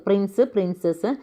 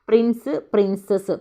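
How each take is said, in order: The two takes are said the same way.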